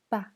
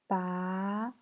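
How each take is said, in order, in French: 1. La syllabe est courte et légère, non accentuée. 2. Le ton monte du milieu vers le haut. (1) "Et le ton neutre" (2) "Deuxième temps"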